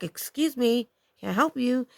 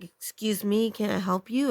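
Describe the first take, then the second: First: Higher-pitched, firm retold challenge; authoritative, angry. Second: Said in the usual way. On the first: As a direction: confront a stranger with controlled anger. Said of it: "I said it really authoritatively, like, I was very angry". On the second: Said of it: "but I said it really authoritatively".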